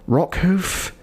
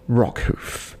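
First: Rockhoof? pitched up high with a rising, disbelieving lift; incredulous question. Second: Deflated deadpan. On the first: Podcast host baffled that the show brought him back, incredulous rise. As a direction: ask it like you can't believe the choice. Baffled at the writers' character choice. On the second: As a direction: let the name sink with weary resignation. Deadpan naming of the character. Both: Real, not acted.

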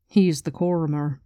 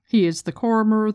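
First: Said in the usual way. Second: He is the Coromer, with He pitched higher and louder; stress on He. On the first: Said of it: "Quan's line read from the book". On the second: Shown as a demonstration. Host stressing He while recapping the book: He is the Coromer, He lifted. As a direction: lean hard on He, the rest level. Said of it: "recapping Rand's holy trinity".

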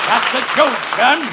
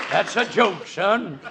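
First: Louder blustering colonel; loud joke bark. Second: Said in the usual way. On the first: Acted. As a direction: blare it like a blowhard. Foghorn-style loud delivery.

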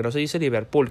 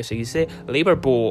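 First: "Liverpool" said as li-ver-PUL, with a full final "l"; Spanish pronunciation. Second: "Liverpool" as LI-ver-poo, stressed at the front, final "l" swallowed; corrected English pronunciation. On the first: Quoting the gringa correcting brands, "Liverpool" the Spanish way, "liverpul". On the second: Quoting the gringa correcting brands, "Liverpool" in mock English, "LIverpoo". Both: Retold or imitated. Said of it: "salió corrigiendo la pronunciación".

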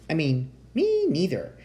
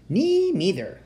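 First: Lightly voiced tiny mouse, raised in pitch; small creature correcting itself. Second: High, piping little squeak of a voice; tiny mouse voice. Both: A narrator's reading. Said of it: "said a tiny voice".

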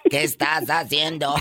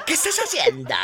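First: Said in the usual way. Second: Laughs through the repeated question; laughing. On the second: Real, not acted. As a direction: asks again, cracking up. (pregunta entre carcajadas)

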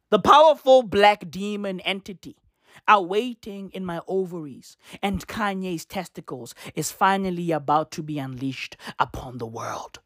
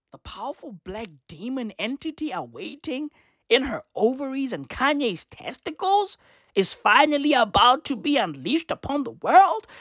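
First: Low, measured read-out of a post; solemn low recital of an ominous quote. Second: Swooping disbelief, rising at the end; incredulous repeat. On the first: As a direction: intone it gravely, dropping lower toward the end. Reads out her ominous post. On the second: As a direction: quote it back as a question. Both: Retold or imitated.

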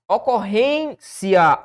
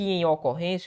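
First: "Ocorrência" slowly, RÊN held, cia detached; syllable split. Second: Said in the usual way. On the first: Shown as a demonstration. Teacher showing the division, "Ocorrência" slowly as ocor-RÊN-cia. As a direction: draw out the stressed RÊN in "Ocorrência", then cia. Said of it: "o que eu tenho é ocorrência". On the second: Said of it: "Veja que em ocorrência".

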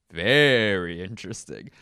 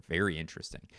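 First: Loud. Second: Said in the usual way. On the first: Pretend. Catchphrase said twice, louder.

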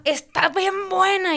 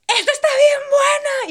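First: Imitated yelling. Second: High, slow, loud imitated yell of delight; imitated shout. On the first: The date yelling with every bite of pizza, drawn-out mock shout. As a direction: stretch each word like a shameless yell. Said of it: "empezó a gritar". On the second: Ana shouting about the pizza in the Costco food court, loud and high. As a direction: belt it out like she's hollering across the store. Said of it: "la Ana grita".

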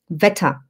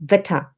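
No difference in how they are said.

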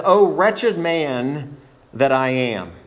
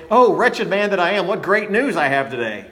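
First: Slow, drawn-out, weighty exclamation; emphatic lament. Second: Mock cheerful delivery. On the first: Acted. Preacher reading Paul's cry to the congregation, emphatic and slow. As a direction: stretch it out as a grave declaration. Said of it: "must have said this with some emphasis". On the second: Shown as a demonstration. Preacher showing how Paul is not saying it, mock cheerful. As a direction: toss it off like happy news, hammed-up. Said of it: "he's not saying it".

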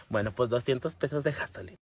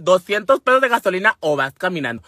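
First: Low, much softer giving-in; resigned agreement. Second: Insistent parental demand; firm ultimatum. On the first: Daughter accepting mother's gas-money terms, low and resigned. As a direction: drop the voice and concede meekly. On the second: Mother setting terms for lending the truck, firm ultimatum. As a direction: lay down the condition firmly. Acted mother lays down her condition. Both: Retold or imitated.

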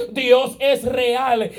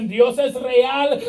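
First: Very slow, stress on es, falling to a close; slower falling proclamation. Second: Slow, weighty declaration with stress on es; slow proclamation. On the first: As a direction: drag out "Dios es real" and let it fall. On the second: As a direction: proclaim "es real" slowly, savoring each word. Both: Retold or imitated. Crowd proclaims God is real.

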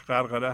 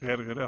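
First: غرغره said "gharghare", with a-vowels; correct pronunciation. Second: غرغره said "gherghere", with e-vowels; colloquial pronunciation. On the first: Teacher gives the correct pronunciation, غرغره as "gharghare". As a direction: pronounce غرغره carefully as "ghar-gha-re". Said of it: "تلفظ درستش غرغره هست". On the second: Teacher offers the everyday alternative, غرغره as "gherghere". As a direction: say غرغره loosely as "gher-ghe-re". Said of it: "اصطلاحاً". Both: Shown as a demonstration.

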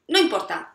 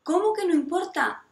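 First: A louder, breezy "no importa" that waves it away; dismissive brush-off. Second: "importa" thrown back higher, in disbelief; indignant echo. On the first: Retold or imitated. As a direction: shrug it off like a parent who doesn't see the problem. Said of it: "¿Y tú qué le dices?". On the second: Real, not acted. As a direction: challenge the dismissive parent, incredulous.

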